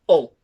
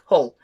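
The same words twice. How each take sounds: First: It is said in the local Hull accent. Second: It is said in a standard English accent.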